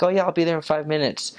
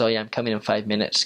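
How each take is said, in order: First: Lightly mimicked, higher breezy promise; breezy late excuse. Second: Said in the usual way. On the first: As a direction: toss off the excuse as if nothing's wrong.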